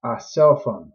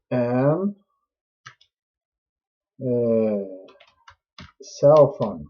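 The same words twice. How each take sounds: First: "A cell phone" given as the fix; correct take. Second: "An cell phone" set up as the mistake; wrong take. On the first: Teacher correcting the example for students. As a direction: say "A cell phone" as the right answer. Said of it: "como que seria o correto". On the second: Teacher showing students an error. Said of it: "aí estaria errado". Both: Shown as a demonstration.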